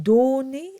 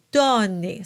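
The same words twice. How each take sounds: First: Donné said with a closed O. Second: Donné said with an open O. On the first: Teacher contrasting closed and open O. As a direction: show the wrong closed O in donné. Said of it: "the O is open". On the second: Teacher modelling the open O. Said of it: "So it's a bit more open". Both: Shown as a demonstration.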